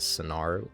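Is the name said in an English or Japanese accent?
English. The name is said with an English accent.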